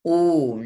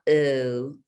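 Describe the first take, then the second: First: The vowel is said with rounded lips. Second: The vowel is said flat, without lip rounding. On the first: The speaker calls it right. "Round your lips" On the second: The speaker calls it wrong.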